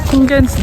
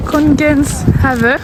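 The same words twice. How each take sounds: First: "Kongens" said alone, clearly and on its own; Danish word repeated. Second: Slow, careful Danish "Kongens Have"; Danish pronunciation. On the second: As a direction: spell out "Kongens Have" slowly as a Danish lesson. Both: Shown as a demonstration. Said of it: "un petit cours de danois".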